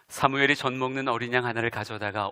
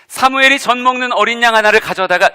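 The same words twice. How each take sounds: First: The voice is pitched lower and flatter. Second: The voice is pitched higher and livelier. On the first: The speaker calls it wrong. "요거보다는" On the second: The speaker calls it right. "목소리 톤을 살짝만 올리면, ... 요렇게"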